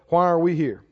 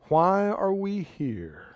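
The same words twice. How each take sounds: First: It is said in a natural speaking voice. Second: It is said in a changed, put-on voice.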